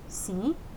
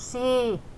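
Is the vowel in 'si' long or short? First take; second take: short; long. First: The i vowel is fairly short. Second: The i vowel is long and drawn out. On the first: The speaker calls it right. "se on 1,25 iitä siellä perässä, ei kaksinkertainen" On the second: The speaker calls it wrong. "se ei ole si, eli se ei ole pitkä"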